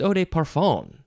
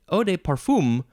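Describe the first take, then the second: First: The last syllable is said like 'fan'. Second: The last syllable is said like 'fum'. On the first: The speaker calls it right. "but it's" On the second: The speaker calls it wrong. "I would want to say"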